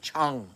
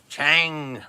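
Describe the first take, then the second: First: The name is said with a Thai pronunciation. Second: The name is said the speaker's usual way. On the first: "In in Thai language, I think it's like Chung" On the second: "I I pronounce it Chang, like Chang"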